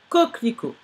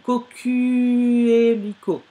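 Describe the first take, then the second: First: No extra u vowel follows the first k. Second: An extra u vowel follows the first k. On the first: The speaker calls it right. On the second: The speaker calls it wrong.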